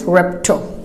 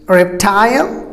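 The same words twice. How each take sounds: First: Reptile cut short to REP-tl; American reptile, no I sound; American pronunciation. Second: Reptile with a full "tile", rising; British reptile, long i; British pronunciation. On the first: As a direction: say reptile with a schwa ending. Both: Shown as a demonstration. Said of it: "and Americans reptile".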